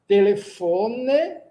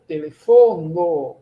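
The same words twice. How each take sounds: First: "Telefone" spelled out slowly, ending on a clear E with a rise; slow model word. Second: "Telefono" slow and firm, ending on a clear O with a fall; slow model word. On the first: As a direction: say "Telefone" slowly, stressing the final E. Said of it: "termina pela letra E". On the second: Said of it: "O substantivo termina pela letra O". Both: Shown as a demonstration.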